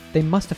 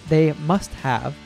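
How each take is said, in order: First: The word have is reduced to a schwa. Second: The word have is said in full. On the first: "Miley reduces the entire word have to a schwa" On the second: "Instead of saying"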